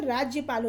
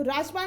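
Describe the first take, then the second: First: Said in the usual way. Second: राजपाल with no y after the j; wrong pronunciation. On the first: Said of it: "राज्यपाल होता है". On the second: Shown as a demonstration. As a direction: run j straight into p in राजपाल. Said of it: "राजपाल नहीं होता".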